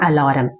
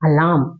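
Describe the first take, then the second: First: The r sound is pronounced. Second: The r sound is silent. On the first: The speaker calls it wrong. "Not அலாரம்" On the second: The speaker calls it right. "ஆர் வந்து சைலண்டா இருக்கணும்"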